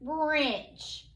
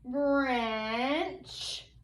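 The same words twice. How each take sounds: First: The word is said quickly as one unit. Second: The word is drawn out slowly, sound by sound. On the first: "Now say it quickly" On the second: "say this word slowly with me"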